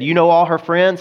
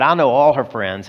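First: "You know all her friends?" pitched up as a question; asking question. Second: "I know all her friends" stated at an even pitch; confirming answer. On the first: Tony asks Harry about Agnes, "all her friends?" lifted as a question. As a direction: ask it higher, lifted through "friends?". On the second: Harry answers Tony about Agnes, "all her friends" stated plainly. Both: Retold or imitated.

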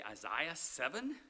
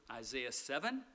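First: Isaiah said eye-ZYE-uh; Isaiah with the middle vowel as in eye, slowly; British pronunciation. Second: Said in the usual way. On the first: Shown as a demonstration. Preacher showing how the British say Isaiah. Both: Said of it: "as the British say".

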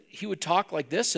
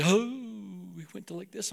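First: Said in the usual way. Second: Put-on pious voice dropping to very soft; affected prayer voice. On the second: Preacher imitating young disciple at prayer, affected prayer voice. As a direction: switch into a hushed, holy praying tone. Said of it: "why you change your voice like that".

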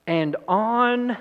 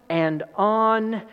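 Both takes have the same delivery.

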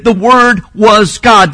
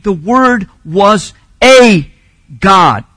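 First: "the Word was God" read slowly, word by word; slow, even weight on "Word was God"; measured reading. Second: "a" drawn out as "ay", loud, before a separate "God"; slow "The Word was a God", leaning hard on "a"; stress on A. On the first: Preacher quotes the reading objectors reject, measured and deliberate. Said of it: "it shouldn't read". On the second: Preacher quotes objectors' corrected reading, heavy stress on A. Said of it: "That last phrase should read". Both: Retold or imitated.

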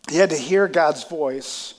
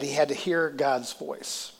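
First: HAD pressed louder and slower in "He had to hear God's voice"; stress on HAD. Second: Said in the usual way. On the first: Shown as a demonstration. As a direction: lean on the word "had", slow and louder.

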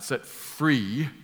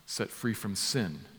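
First: "free" stretched out slowly with a rising tune; open-ended stress on FREE. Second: "set free from sin" slow and softer, falling to a close; settled, completed phrase. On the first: Preacher quoting the cut-short phrase to correct it, "free" drawn out rising. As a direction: draw out "free" and leave it hanging upward. Contrasts bare phrase with full one. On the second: Preacher correcting the cut-short phrase, "from sin" soft and final. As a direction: land quietly on "from sin" with a falling tune. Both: Shown as a demonstration.

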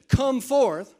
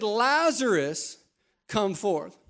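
First: "Come forth" called out loud and high; commanding call. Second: "Lazarus" drawn out slowly, then "come forth" even and plain; slow call by name. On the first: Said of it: "If Jesus would have just gone to the tomb and said". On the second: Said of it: "But he said". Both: Acted.

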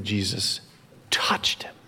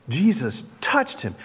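First: Hushed, breath-only "touched" after a pause; stress on touched. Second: "touched" voiced firmly after "Jesus"; stress on touched. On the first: Preacher showing the sentence's emphasis, "touched" stressed in a hush. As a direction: let "touched" drop to a whisper. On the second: Preacher repeating the key action, "touched" stressed aloud. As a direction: land clearly on "touched" in full voice. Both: Shown as a demonstration. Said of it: "The emphasis and the action".

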